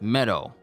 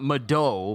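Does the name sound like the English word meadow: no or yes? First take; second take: yes; no. First: It is said like the English word meadow. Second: It is not said like the English word meadow. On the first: The speaker calls it right. "As if I'm saying the word meadow" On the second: The speaker calls it wrong. "Not meadow"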